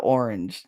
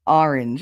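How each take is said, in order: First: Said in the usual way. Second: "orange" in her own accent. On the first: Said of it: "instead of". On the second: Shown as a demonstration. Her accent showing off her "orange". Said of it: "But, like, I say".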